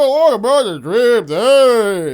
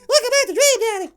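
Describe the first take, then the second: First: It is said slowly, slowed down. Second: It is said fast, sped up.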